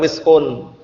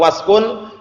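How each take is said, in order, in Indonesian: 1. Vokal pertama adalah bunyi 'i'. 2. Vokal pertama adalah bunyi 'a'. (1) "boleh dibaca wiskun" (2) "Boleh dibaca waskun"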